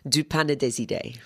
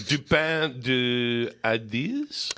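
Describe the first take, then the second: First: Native-style French "Du Pain et des Idées"; "Du Pain et des Idées" in smooth French; French pronunciation. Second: Slow, careful anglicised French; anglicised "Du Pain de Ideas" with English vowels; attempted French name. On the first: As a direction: say the bakery name the French way. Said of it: "say it again". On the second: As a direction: sound it out hesitantly, like a learner. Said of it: "can I say it and you can t-, correct my pronunciation". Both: Shown as a demonstration.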